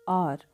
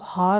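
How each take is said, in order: First: The word begins with a vowel, no h. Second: The word begins with an h sound. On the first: The speaker calls it right. "H आपका silent है" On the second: The speaker calls it wrong. "हार आपका गलत हो जाएगा"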